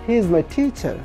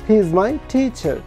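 The two takes are said the same way.

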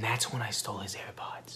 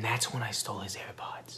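First: The sentence is whispered quietly. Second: The sentence is whispered quietly.

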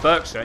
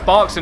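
First: The first syllable is said as it is spelled. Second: The first syllable is not said as spelled. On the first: The speaker calls it wrong. "not Berkshire, even though it's spelt Berkshire" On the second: The speaker calls it right. "Just pronounce Berkshire"

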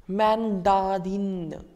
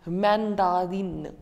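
The two takes are said the same way.

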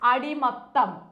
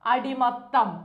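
Both takes have the same delivery.

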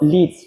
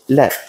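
First: It is pronounced like the verb. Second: It is pronounced like the metal. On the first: It names the action of guiding. The speaker calls it wrong. "Not lead. Lead is the verb" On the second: It names the chemical element. The speaker calls it right. "We're talking about the element now. You pronounce it lead"

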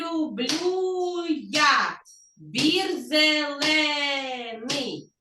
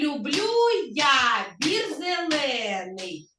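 First: It is spoken at a slower pace. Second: It is spoken at normal pace and volume. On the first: "Так, зробимо повільніше" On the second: "І у нас є, дивіться, ритм"

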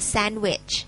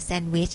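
First: English pronunciation, stress on the first syllable. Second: Thai pronunciation, with Thai tones. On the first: "สเตรสนะคะตรงพยางค์แรกนะคะ" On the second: "เวลาเราพูดภาษาไทยเราก็กินแซนด์วิชใช่ไหม"

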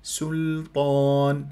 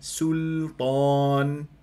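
No difference in how they are said.

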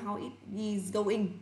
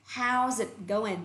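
First: Every word is said fully and separately. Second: The words are contracted and linked together. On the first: "Chứ mình là" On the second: "I am using the American accent, so I am voicing it as"

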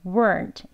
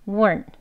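First: It is said forcefully with exaggerated mouth and tongue. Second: It is said softly with relaxed mouth and tongue. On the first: The word is being emphasized. "강조할 때는 weren't 이렇게 강조해서 발음하지만요" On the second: It is ordinary conversational speech. "편안하게 그냥 힘 빼시고"

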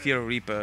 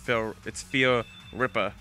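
First: The second word has a long 'ee' vowel. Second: The second word has a short 'i' vowel. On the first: The speaker calls it wrong. "I always used to pronounce it as Fear Reaper" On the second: The speaker calls it right. "oh, it's Fear Ripper"

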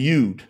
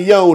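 First: The vowel sounds like the oo in food. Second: The vowel sounds like the o in go. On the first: The speaker calls it right. "it's a yud. There's no O's in Hebrew" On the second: The speaker calls it wrong. "not a yod"

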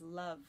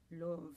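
First: Love is said with its modern English vowel. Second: Love is said with an older vowel, rhyming with remove. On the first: "I've seen sonnets where he rhymes love with remove" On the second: "it must have been something more like love and remove"

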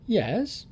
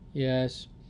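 First: The yes sounds bright and upbeat. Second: The yes sounds low and downbeat. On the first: Things are going well. "if it was good" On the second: Things are not going well. "if he wasn't so good"

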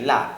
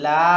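First: The vowel is said short and quick. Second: The vowel is drawn out long. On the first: "এখানে লাম জবরের সাথে মাদ নাই, এই জন্য তাড়াতাড়ি লা" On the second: "লা টান দিয়ে একবার মাদ সহ"

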